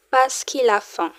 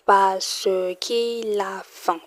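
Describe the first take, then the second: First: Said in the usual way. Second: "Parce qu'il a faim" spelled out slowly, each syllable clear; slowly, so learners catch every sound; slow model sentence. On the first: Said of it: "teacher models the sentence". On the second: Shown as a demonstration. Teacher slowing "Parce qu'il a faim" down for learners. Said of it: "teacher repeats the sentence".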